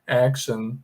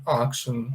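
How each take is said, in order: First: Action said as "EK-shon", with the a like an e; American action. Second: Action said with an open a, as "AK-sho"; alternate action. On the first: Teacher showing students the American action, with an e sound. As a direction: open the a toward e in action. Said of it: "em inglês americano". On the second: Teacher showing students another way to say action, with an open a. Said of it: "às vezes algumas pessoas pronunciam assim". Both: Shown as a demonstration.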